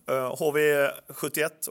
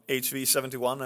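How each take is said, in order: First: The name is said with Swedish pronunciation. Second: The name is said with English pronunciation.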